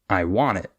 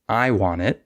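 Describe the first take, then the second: First: The stress is on want. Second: The stress is on I.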